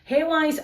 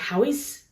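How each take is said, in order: First: The first syllable sounds like 'hay'. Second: The first syllable sounds like 'how'. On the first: The speaker calls it wrong. "I do know that I'm pronouncing Haywise wrong" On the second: The speaker calls it right. "is it supposed to be Howis"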